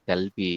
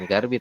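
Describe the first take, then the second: First: The first syllable ends in an l sound. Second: The first syllable ends in an r sound. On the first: The speaker calls it right. "tapi Galbi ya" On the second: The speaker calls it wrong. "itu bukan Garbi"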